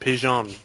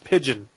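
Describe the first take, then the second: First: It is pronounced with a French-sounding pronunciation. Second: It is pronounced like the English bird word. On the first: "the French they pronounce it Pigeon" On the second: "he has a French name named it's Pigeon"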